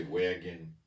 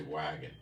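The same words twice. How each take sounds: First: "wagon" with a tense New York A; New York pronunciation. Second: "wagon" with an open short A; non-New York pronunciation. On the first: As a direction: say "wagon" with the A raised toward WEH-gun. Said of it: "in New York". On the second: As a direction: say "wagon" as WAG-un, the A lax. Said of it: "Other people would say". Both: Shown as a demonstration.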